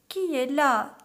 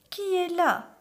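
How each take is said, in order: First: Put-on higher, louder old granny calling out; grandmother. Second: High put-on granny voice; imitated grandmother. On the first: Grandmother asking who knocks, raised granny voice. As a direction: call out as the grandmother. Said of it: "demanda Mère Grand". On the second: Wolf in the bed calling out, imitating the grandmother. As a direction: fake an old granny's high call. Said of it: "en imitant la voix de la grand-mère". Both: A narrator's reading.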